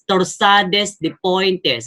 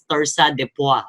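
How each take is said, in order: First: It is read out just as it is spelled. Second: It is said in a fancy French style. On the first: This is how it is read just to remember it. The speaker calls it wrong. "in a simple okay, reading, pag binasa natin is" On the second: This is how it is actually pronounced. The speaker calls it right. "but we we pronounce it as"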